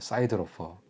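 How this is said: It is said in an American accent. "미국식으로 발음해 볼게요"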